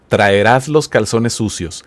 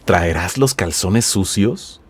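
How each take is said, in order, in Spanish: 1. La voz baja al final, como una afirmación. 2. La voz sube al final, como una pregunta. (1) "Si yo no le doy entonación de pregunta" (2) "Pero si dices"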